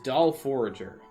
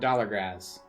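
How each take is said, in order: First: The name is said as 'Doll Forager'. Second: The name is said as 'Dollar Grazz'. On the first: The speaker calls it wrong. "in my mind I cut that out of the pronunciation of the name" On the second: The speaker calls it right. "No, it's a dollar, using the four as an A as leet, and then Grazz"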